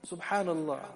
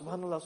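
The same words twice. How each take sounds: First: The word is said slowly and warmly. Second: The word is said quickly and hurriedly. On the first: The praise is said with love and attention. The speaker calls it right. "Say it with love. ... Take time" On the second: The praise is rushed without feeling. The speaker calls it wrong. "You find that tasbih is being so fast"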